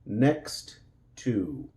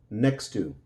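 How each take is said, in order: First: The two words are said separately, two T sounds. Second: The two words merge quickly, sharing one T.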